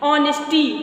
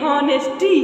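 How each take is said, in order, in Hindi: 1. शब्द सीधे स्वर ध्वनि से शुरू होता है। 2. शब्द सुनाई देने वाली h ध्वनि से शुरू होता है। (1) "साइलेंट लेटर ... आ आ निकल रहा है ना" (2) "कभी कभी बच्चे हॉनेस्टी पढ़ देते हैं"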